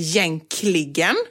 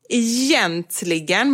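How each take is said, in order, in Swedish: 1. Ordet uttalas i en förkortad, reducerad form. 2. Ordet uttalas i sin fulla standardform. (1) "många som säger jänkligen"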